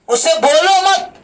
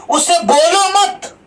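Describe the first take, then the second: Both takes have the same delivery.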